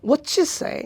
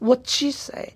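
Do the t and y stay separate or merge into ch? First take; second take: merge; merge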